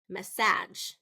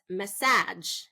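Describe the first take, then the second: First: The stress is on the second syllable. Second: The stress is on the second syllable.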